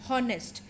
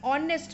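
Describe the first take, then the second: First: The word begins with an h sound. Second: The word begins with a vowel sound. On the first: The speaker calls it wrong. "This is not pronounced as honest" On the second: The speaker calls it right. "It is a vowel sound"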